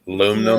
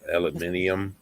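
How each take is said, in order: First: It is said the American way, four syllables. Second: It is said the British way, five syllables.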